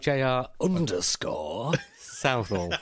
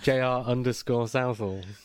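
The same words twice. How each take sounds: First: It is said in a marked, put-on accent. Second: It is said in a plain, unaccented voice. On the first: The speaker calls it right. "It's the only way it can be said" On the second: The speaker calls it wrong. "you said it without the accent that time"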